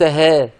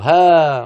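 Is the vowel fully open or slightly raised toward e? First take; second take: raised; open. First: The vowel is slightly raised toward e. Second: The vowel is a fully open a sound. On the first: The speaker calls it wrong. "وليس ها، ما فيها تقليل" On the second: The speaker calls it right. "افتح فمك"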